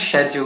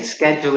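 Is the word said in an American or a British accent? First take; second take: British; American. First: It is said in a British accent. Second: It is said in an American accent. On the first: It suits talking to British listeners. "if I'm talking to Brits" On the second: It suits talking to an American listener. "if I'm talking to an American"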